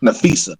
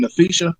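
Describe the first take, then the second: First: Nafisa with a plain s, "na-FEE-sa", lower; corrected pronunciation. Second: Nafisa with a sh sound, "na-FEE-sha"; unsure pronunciation. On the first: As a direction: repeat Nafisa low, with s instead of sh. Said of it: "Nah, Nafisa". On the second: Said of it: "how you pronounce her first name?". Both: Real, not acted.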